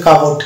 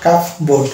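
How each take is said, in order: First: কাপড় as one word, silent P; correct pronunciation. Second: কাপ বোর্ড as two words, P sounded; wrong pronunciation. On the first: Teacher models cupboard for students, correct pronunciation. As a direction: say কাপড় joined up, no P before the B. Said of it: "এটা শুদ্ধ উচ্চারণ হচ্ছে কাপড়". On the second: Teacher warns students off this form, wrong pronunciation. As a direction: say কাপ বোর্ড with a clear P before B. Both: Shown as a demonstration.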